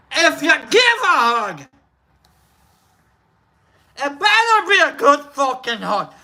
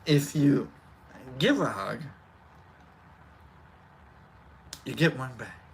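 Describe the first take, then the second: First: High, forceful Scottish accent. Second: Very low, soft, halting delivery; Brock. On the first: Shown as a demonstration. Streamer translating the hug saying, emphatic Scottish accent. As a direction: belt it out as a brash Scot. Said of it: "In Scottish". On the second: Pretend. Streamer reminding chat about hugs, low soft impression. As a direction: drop the pitch right down, long pauses between phrases. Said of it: "In Brock, remember".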